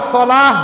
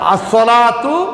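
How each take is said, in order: First: The word ends with an h sound. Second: The word ends with a t sound. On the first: The reader stops on the word. The speaker calls it wrong. "আসলাহ বলে খয়রুম মিনান নাওম বলতেছি না" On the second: The reader continues without stopping. The speaker calls it right. "তা উচ্চারণ হবেই"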